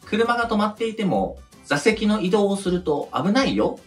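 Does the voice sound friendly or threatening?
friendly. It sounds light and friendly, like a child. It is a friendly caution. "みたいな感じで子供がさ、言うのが普通かなって"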